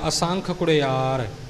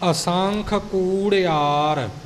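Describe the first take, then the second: First: The first vowel of the second word is short. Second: The first vowel of the second word is long. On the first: The speaker calls it wrong. "ਕਾਲੀ ਕਾਲੀ ਵਿੱਚ ਆਪਾਂ ਕੁੜਿਆਰ ਬੋਲ ਜਾਂਦੇ ਹਾਂ" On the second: The speaker calls it right. "ਕੂੜਿਆਰ ਕੱਕੇ ਦੀ ਲੈਂਕੜ ਪੂਰੀ ਉਚਾਰਨ ਕਰਕੇ ਪਾਠ ਕਰਨਾ ਜੀ"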